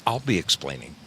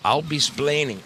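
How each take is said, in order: First: Said in the usual way. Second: "splaining" said higher, dropping the ex; mock Ricky Ricardo, "splaining"; Ricky Ricardo line. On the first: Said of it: "I'll be splaining". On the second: Shown as a demonstration. To his viewers, a mock Ricky Ricardo accent.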